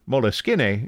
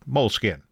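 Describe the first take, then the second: First: The name is pronounced the Italian way. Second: The name is pronounced the English way. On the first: "Moleskine is the Italian pronunciation" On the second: "many in English-speaking countries just say Moleskine. That's the Anglo pronunciation"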